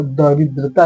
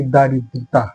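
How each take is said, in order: First: दरिद्रता said da-rid-ra-ta with a short first a; दरिद्रता, short द at the start; correct spelling word. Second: दारिद्रता said daa-rid-ra-ta with a long first aa; दारिद्रता, long दा at the start; wrong form shown. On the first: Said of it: "तो दरिद्रता लिखिए". (दरिद्रता छोटे 'द' के साथ) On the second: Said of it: "न कि दारिद्रता". (दारिद्रता लंबे 'दा' के साथ) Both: Shown as a demonstration.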